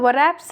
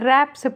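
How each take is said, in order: First: The word starts with a w sound. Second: The word starts with an r sound. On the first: The speaker calls it wrong. "W silent होता है, इसलिए हम इसे वरैप्स नहीं" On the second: The speaker calls it right. "रैप्स पढ़ते हैं"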